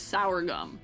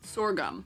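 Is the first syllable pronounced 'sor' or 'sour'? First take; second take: sour; sor. First: The first syllable sounds like 'sour'. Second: The first syllable sounds like 'sor'. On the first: The speaker calls it wrong. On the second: The speaker calls it right.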